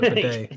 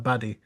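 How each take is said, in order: First: The name sounds like the word bidet. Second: The name sounds like the word baddy. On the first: This is how others pronounce the name. "they pronounce it Bidet" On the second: The speaker prefers this pronunciation of the name. "his name is Tyler Baddy"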